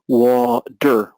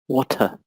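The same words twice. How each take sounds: First: It is said in an American accent. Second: It is said in a London accent.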